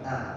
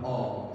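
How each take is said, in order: First: The vowel is open, sounding like a. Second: The vowel is rounded, sounding like o. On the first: The speaker calls it right. "tapi a" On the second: The speaker calls it wrong. "jangan o"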